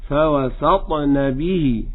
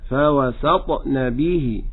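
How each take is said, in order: No difference in how they are said.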